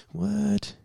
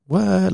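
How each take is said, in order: First: Tiny high breathy meme what; meme kid what. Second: Put-on high squeaky meme-kid what. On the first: Retold or imitated. Copying the little meme kid's high soft what. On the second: Mimicking the little meme kid, high squeak. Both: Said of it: "Like that meme with that little kid".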